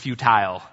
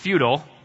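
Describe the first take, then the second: First: The word has a non-American pronunciation. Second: The word has an American pronunciation. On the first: "or the proper way" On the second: "if you pronounce it the American way"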